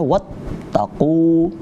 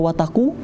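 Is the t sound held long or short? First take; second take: long; short. First: The t sound is held long before release. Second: The t sound is short and not held. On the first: The speaker calls it right. "Wat ditahan dulu, ada tasydid di situ" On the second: The speaker calls it wrong. "jangan dibaca wataku"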